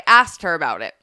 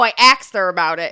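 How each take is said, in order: First: The verb sounds like standard 'asked'. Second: The verb sounds like 'axed', with the sounds swapped. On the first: "instead of" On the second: "It's like a East Coast thing to have that accent and say"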